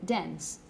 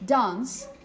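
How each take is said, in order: First: It is said in an American accent. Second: It is said in a British accent. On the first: "whereas in American you would say" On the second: "in British English you would probably say"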